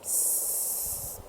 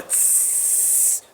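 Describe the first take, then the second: First: Tss as a soft, thin hiss of air; subtle tss. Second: A full, forceful hiss on tss; harsh tss. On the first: Coach showing the right hiss, a soft subtle tss. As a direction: let out a gentle tss. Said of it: "a nice subtle tss". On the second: Coach showing the wrong hiss, a forceful tss. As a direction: blow out a strong tss. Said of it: "instead of a tss, you want a nice subtle tss". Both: Shown as a demonstration.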